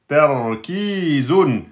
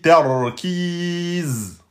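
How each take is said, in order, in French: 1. Le mot finit par un 'un' final. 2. Le mot finit par un simple 'z'.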